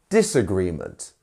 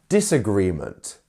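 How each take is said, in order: No difference in how they are said.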